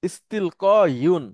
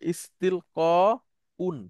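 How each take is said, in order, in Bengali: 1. শেষের -un-এর আগে একটি y-গ্লাইড আছে। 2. শেষের -un-এর আগে একটি গ্লটাল স্টপ আছে। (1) "থার্ড রেডিকেলে দুই পেশ, ... ইস্তিল ক ইউন পড়াটা একটু কঠিন" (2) "সহজীকরণ করা হয়, ... হামজা লেখা হয়, উচ্চারণের সুবিধার্থে"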